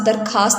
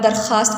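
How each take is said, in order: First: درخواست with a hard k, "dar-KAAST"; common mispronunciation. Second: درخواست with a throaty fricative kh; correct kh sound. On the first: Teacher imitates students' mistake, درخواست with a hard k. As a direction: say درخواست with k in place of the throaty kh. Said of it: "اکثر طلبہ و طالبات". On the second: Teacher gives students the proper word, درخواست with fricative kh. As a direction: say درخواست as "dar-KHAAST", kh scraped at the back. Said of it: "کو درخواست بولتے ہیں". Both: Shown as a demonstration.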